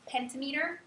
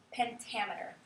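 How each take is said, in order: First: "pentameter" read as PEN-ta-MEE-ter; mispronounced as spelled. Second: Said in the usual way. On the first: Shown as a demonstration. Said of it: "looks like it's". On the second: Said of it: "We say".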